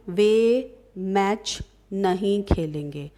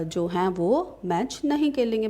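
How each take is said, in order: First: Slow, spaced-out sentence for students; slow example reading. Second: Said in the usual way. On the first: Shown as a demonstration. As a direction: read it out word by word, slowly. Teacher reads out example sentence. (धीरे-धीरे उदाहरण पढ़ते हुए) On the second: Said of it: "जैसे मैं आपसे बोल रही हूँ".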